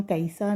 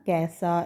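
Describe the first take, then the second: First: कैसा split as "ka-i-sa"; glided vowel. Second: कैसा with one open vowel, "kɛ-sa"; straight ai vowel. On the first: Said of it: "इसको हम कैसा नहीं बोला". (कैसा को "कइसा" बोलें) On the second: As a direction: say कैसा without any glide. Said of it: "सीधा ए की मात्रा बोल दी". (कैसा में सीधा 'ऐ' बोलें) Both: Shown as a demonstration.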